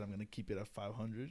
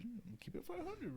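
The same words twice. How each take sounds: First: Said in the usual way. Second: Much higher, thin mocking echo of himself; squeaky mock repeat. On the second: Repeating his own payday vow in a high mock voice. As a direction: jump way up in pitch for the repeat.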